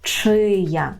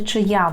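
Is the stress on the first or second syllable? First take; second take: first; second. First: The stress is on the first syllable. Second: The stress is on the second syllable. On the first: The speaker calls it right. "по-польську то чия" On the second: The speaker calls it wrong. "Дуже легко тут зробити помилку і сказати чия"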